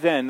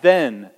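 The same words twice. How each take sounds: First: "then" pressed once more; emphatic then. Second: "then" pressed with weight; emphatic then. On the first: Preacher explaining Hebrew emphasis, "then" stressed. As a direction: hit "then" firmly. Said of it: "that's emphatic in the Hebrew". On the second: Preacher pointing the church to the word, "then" stressed. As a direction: lean into "then". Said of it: "that emphatic". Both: Shown as a demonstration.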